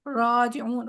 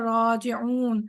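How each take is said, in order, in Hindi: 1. पहला स्वर 'o' जैसा है। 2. पहला स्वर 'o' जैसा है।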